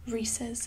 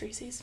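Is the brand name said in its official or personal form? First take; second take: official; personal. First: The name is said in its official pronunciation. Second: The name is said in a personal, casual pronunciation. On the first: "I think that's the appropriate, correct way of saying it" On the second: "I'm never gonna say it that way. It's Reese's"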